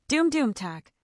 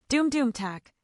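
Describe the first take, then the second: No difference in how they are said.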